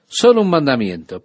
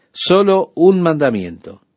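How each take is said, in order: First: "Solo" lifted and leaned on, rest of the phrase falls away; stress on solo. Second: "un" stretched and lifted higher, as in just one; stress on un. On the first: Preacher stressing "Solo" to the radio listeners. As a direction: lean on "Solo" as the key word. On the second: Preacher repeating the phrase, now stressing "un". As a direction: dwell on "un" to insist it is only one. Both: Shown as a demonstration.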